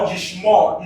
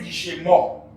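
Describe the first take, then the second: First: The sh runs straight into the m. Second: A short vowel separates the sh and m. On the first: The speaker calls it right. "it is a silent Shewa" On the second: The speaker calls it wrong. "it did not say Jishemor"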